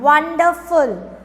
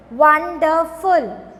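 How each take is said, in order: First: Said in the usual way. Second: "wonderful" slowly in three beats, won, der, ful; teacher counting out "wonderful" syllable by syllable, slow; split into syllables. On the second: Shown as a demonstration. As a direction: sound out each syllable of "wonderful". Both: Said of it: "more than two syllable".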